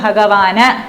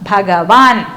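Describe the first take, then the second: First: The word ends with a short a vowel. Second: The word ends on the n sound. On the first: The letter lacks the vowel-cancelling sign. "അല്ലെങ്കിലോ ഇതിനെന്ത് പറയും?" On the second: The letter carries the vowel-cancelling sign. "ന താഴെ ഉള്ളതുകൊണ്ട് ഭഗവാൻ"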